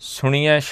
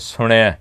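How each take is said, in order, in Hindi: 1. शब्द 'ya' की ध्वनि से खत्म होता है। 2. शब्द 'ai' की ध्वनि से खत्म होता है। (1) "सुनिया शब्द नहीं है किते भी" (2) "शब्द है नाणे नूं सिहारी दे नाल ते ऐड़े दे उत्ते दलावां ने सुनिया जो इहदा उचारण है"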